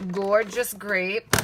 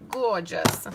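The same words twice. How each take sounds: First: "Gorgeous" slowly drawn out with a rising lilt. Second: "Gorgeous" stretched and lingered on, falling at the end; savoring gorgeous. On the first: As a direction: savor "Gorgeous Grape", stretching every syllable. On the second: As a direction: linger on "Gorgeous" and let it settle down. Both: Shown as a demonstration. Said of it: "You just have to say it like that".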